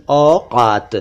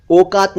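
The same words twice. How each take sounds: First: "औकात" opening with open au; correct au vowel. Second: "औकात" mispronounced "okaat", closed o, higher pitch; wrong o vowel. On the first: Teacher corrects to औकात, au sound. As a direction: say "औकात" as "aw-kaat". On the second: Teacher rejects a wrong औकात, o sound. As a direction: start "औकात" with "oh". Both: Shown as a demonstration. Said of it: "औकात नहीं".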